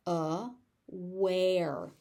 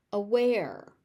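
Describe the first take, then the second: First: "Aware" split slowly into two syllables; overpronounced. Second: Said in the usual way. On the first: Shown as a demonstration. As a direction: say "Aware" with a gap before the "ware". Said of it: "I will overpronounce it". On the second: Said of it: "I will say the word normally".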